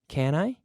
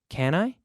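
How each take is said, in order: No difference in how they are said.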